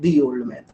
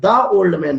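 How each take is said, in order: First: 'The' is pronounced with a long 'thee' vowel. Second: 'The' is pronounced with a short 'thuh' vowel. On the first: The speaker calls it right. "इसे पढ़ेंगे दी old man" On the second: The speaker calls it wrong. "ना पढ़कर"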